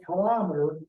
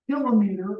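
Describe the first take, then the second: First: "kilometer" as kuh-LOM-uh-ter; kil-OM-eter pronunciation. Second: "kilometer" as KIL-oh-mee-ter; KIL-o-meter pronunciation. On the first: Teacher showing the alternative pronunciation, "kilometer" as kuh-LOM-uh-ter. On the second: Teacher showing the first pronunciation, "kilometer" as KIL-oh-mee-ter. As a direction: say "kilometer" with kilo kept whole, then meter. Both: Shown as a demonstration. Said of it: "or also pronounced kilometer".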